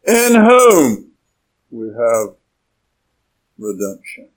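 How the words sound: The main stress falls on the words in whom. The focus is on the one in whom we have it. The speaker calls it right. "The emphasis is on those first two words"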